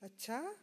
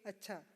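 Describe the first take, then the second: First: It sounds questioning and curious. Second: It sounds plain and agreeing. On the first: The speaker wants to confirm something. "with a question mark at the end, ... express curiosity" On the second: The speaker agrees; it means okay. "or agreement, simply okay"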